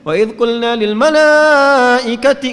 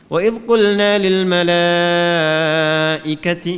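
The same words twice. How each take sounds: First: "Wa idh qulna lil malaikati" recited higher and much louder, slow and strained; overblown, forced loud recitation; wrong way, too high. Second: Sung, slow, tender melodious recitation; sung, gentle recitation. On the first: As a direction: demonstrate the unpleasant overpitched reading. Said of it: "nggak enak". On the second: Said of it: "Jadi jangan ditinggiin bacanya". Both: Shown as a demonstration.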